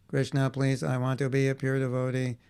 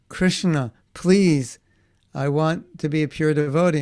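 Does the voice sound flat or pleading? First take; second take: flat; pleading. First: It sounds flat and mechanical, without feeling. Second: It sounds sincere and pleading, with feeling. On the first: The plea is not really meant. The speaker calls it wrong. "And we're saying" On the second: The plea is really meant. The speaker calls it right. "we're supposed to be saying"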